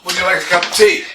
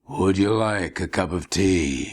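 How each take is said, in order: First: It is said in a normal speaking voice. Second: It is said in a dramatic movie trailer voice.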